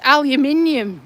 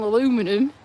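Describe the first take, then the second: First: Aluminium said al-yoo-MIN-ee-um, in five syllables; proper British aluminium. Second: Aluminum said a-LOO-mi-num, in four syllables with a rise; disdainful American aluminum; American aluminum, mocked. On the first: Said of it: "not freaking aluminum". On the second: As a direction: scoff at aluminum as the American version. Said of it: "It's aluminium". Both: Shown as a demonstration.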